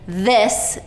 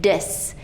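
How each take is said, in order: First: It begins with a soft th sound. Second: It begins with a hard d sound. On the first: The speaker calls it right. "putting your tongue between your teeth" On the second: The speaker calls it wrong. "dis with their tongue behind their teeth"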